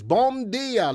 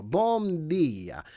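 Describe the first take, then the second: First: Bom dia sung out high and loud; hearty foreign greeting. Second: Said in the usual way. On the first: Real, not acted. Host calling out a high, loud bom dia to a viewer.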